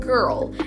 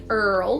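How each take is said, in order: First: The word begins with a g consonant. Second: The word begins with a vowel sound.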